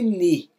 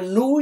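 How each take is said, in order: First: The vowel is a spread ee. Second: The vowel is a back rounded oo. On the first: "e nem ni" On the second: "Não é nu"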